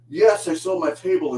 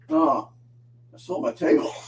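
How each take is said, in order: First: It sounds elated and triumphant. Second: It sounds dismayed and deflated.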